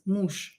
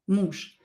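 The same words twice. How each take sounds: First: The word ends in a voiceless sh sound. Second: The same.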